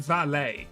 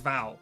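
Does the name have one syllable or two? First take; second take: two; one. First: The name is said with two syllables. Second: The name is said with one syllable. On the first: The speaker calls it wrong. "I say valet" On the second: The speaker calls it right. "I'm pretty sure it's just pronounced like Val"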